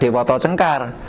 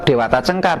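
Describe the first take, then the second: First: The name's vowels are pronounced as rounded o. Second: The name's vowels are pronounced as open a. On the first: The speaker calls it wrong. "bukan Dewoto Cengkar" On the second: The speaker calls it right. "Tetap Dewata Cengkar"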